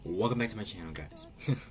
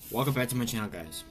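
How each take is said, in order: First: The phrase is spoken at a slower pace. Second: The phrase is spoken very fast.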